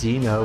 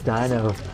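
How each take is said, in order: First: The first syllable sounds like 'dee'. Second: The first syllable sounds like 'die'. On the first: The speaker calls it wrong. "It's not D E" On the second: The speaker calls it right. "There's no E in it, it's D I"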